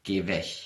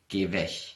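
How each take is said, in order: First: The g in weg sounds like ch. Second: The same.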